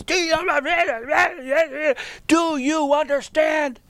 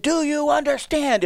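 First: In-his-face confrontation. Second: High-pitched nervous rookie coach; much higher, anxiously checking they follow. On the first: Rookie coach confronting the player who challenged him, in his face. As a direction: get right up in his face, drawing it out. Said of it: "I'm right up in his face". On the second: Young coach explaining a drill to giggling players, nervous. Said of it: "I'm a nervous wreck". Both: Retold or imitated.

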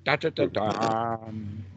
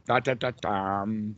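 First: Slow sung Da, da, da, dum motif; sung, Beethoven's Fifth. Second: Repeated slow da da da dum chant; sung, Beethoven's Fifth. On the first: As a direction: chant the Fifth's opening slowly. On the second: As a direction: hum the motif once more. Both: Shown as a demonstration. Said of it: "something like Beethoven's Fifth".

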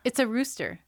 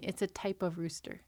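First: Loud, disbelieving repeat; incredulous. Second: Said in the usual way. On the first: Real, not acted. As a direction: say it like you can't believe it. Incredulous repeat of rooster claim.

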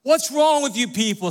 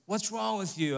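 First: Louder and higher, WRONG hammered; mock outraged rebuke. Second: Softer, gentler take on the scolding question; softened rebuke. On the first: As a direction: playfully imitate a blunt scolding. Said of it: "should have a "What's wrong with you people?" segment". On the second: Shown as a demonstration. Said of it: "that may sound a bit harsh".

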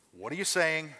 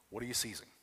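First: "saying" said clearly as SAY-ing; saying, not seizing. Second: "seizing" said clearly as SEE-zing; "seizing" with a long ee and a buzzing z; seizing, not saying. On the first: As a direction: stress the word "saying", say-ing. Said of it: "On the first one, what am I saying?". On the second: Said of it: "on the second one, what am I seizing?". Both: Shown as a demonstration.

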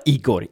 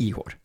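First: Igor with a hard g; pronunciation with hard g. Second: Ihor with an h for the g; "Ihor", breathed h replacing the g; pronunciation with h. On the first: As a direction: say "Igor" with a clear g sound. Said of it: "han uttalar Igor". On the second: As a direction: say "Ihor" with a soft h in the middle. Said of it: "inte Ihor". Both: Shown as a demonstration.

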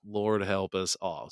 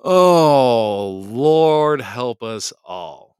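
First: Softer, slow comic sigh of resignation; subdued mock lament. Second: Loud, long-drawn comic wail; mock lament. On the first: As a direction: say it quietly, drawn out in playful resignation. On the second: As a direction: draw it out loudly in playful despair. Mock lament after laughing.

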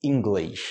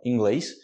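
First: 'inglês' as 'ingleysh', with falling tune; Rio-style -eysh ending on 'inglês'; carioca third option. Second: 'inglês' as 'ingleys', clean s; Portuguese -eys ending on 'inglês', no hush; second-option pronunciation. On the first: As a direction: hush the final s of 'inglês' into sh. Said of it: "a terceira opção". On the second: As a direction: glide from e to y in 'inglês', then a crisp s. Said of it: "a segunda opção". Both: Shown as a demonstration.

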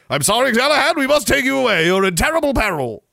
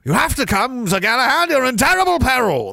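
First: Loud, high mock-heroic urgency; rescuing knight. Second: High, loud mock-heroic urgency; alarmed rescuing knight. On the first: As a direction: insist like a hammed-up knight on a rescue. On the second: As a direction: cry out a warning like a hammed-up knight. Acting out Monty Python scene.

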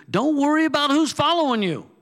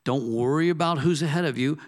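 First: The second line jumps way up high and loud; high-pitched mock voice. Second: Said in the usual way. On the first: A preacher to his congregation, mocking fear of followers, high and loud. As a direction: pitch who's following you high and loud, then let it fall. Preacher contrasting two lines.

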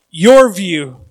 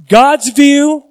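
First: Your view dropped lower; contrast stress. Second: God's view lifted higher and louder; contrast stress. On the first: Pastor contrasting God's view and ours, stressed low. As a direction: let your view fall against God's. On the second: Pastor contrasting God's view and ours, stressed high. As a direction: set God's view against your view. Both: Shown as a demonstration. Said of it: "two ways of seeing things".

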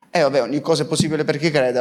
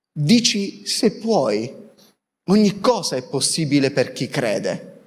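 First: Quick, dismissive run-through; offhand repetition. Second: Slow, measured scripture quote; quoted solemn answer. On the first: Preacher echoing the scripture line as if routine, quick and offhand. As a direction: rattle the saying off casually. Same saying repeated offhandedly. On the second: Preacher voicing the answer from the Gospel story, measured and solemn. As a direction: deliver the answer deliberately, with light gravity. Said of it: "E risponde il papà". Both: Acted.

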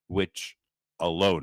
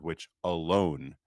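First: Said in the usual way. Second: "alone" drawn out slowly for emphasis; stress on alone. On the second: Shown as a demonstration. Reader underlining a papal quote, stressing "alone". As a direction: lean slowly and deliberately on "alone". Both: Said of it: "I'm gonna stress that word".

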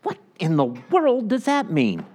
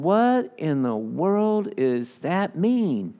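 First: A high, baffled what, mock confusion; puzzled reader. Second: Slow, stretched-out puzzlement; drawn-out bafflement. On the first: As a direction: play the reader lost in the verse. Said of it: "you read Scripture and you go". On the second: Retold or imitated. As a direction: drag out the confusion, word by word. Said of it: "And I'm just going".

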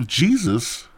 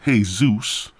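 First: "Jesus" said JEE-zus; English pronunciation. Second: "Jesus" said hay-SOOS; Spanish pronunciation. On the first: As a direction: give "Jesus" the English J sound. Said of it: "A K A". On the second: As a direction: give "Jesus" an H, Spanish style. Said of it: "or should I say Jesus". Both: Shown as a demonstration.

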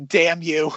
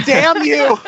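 First: Said in the usual way. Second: High, loud mock curse; hammed-up outburst. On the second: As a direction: hurl the curse melodramatically. Wife's curse, repeated as an outburst.

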